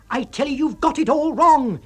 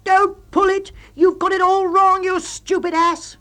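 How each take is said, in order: First: High, loud exasperated insisting; loud high insistent shout; roar. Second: High, loud, and slowing on the insult; loud high yell ending in an insult; furious shout. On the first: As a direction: roar it at him. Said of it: "you roar". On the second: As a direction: bellow at him in exasperation. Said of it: "you shout". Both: A narrator's reading.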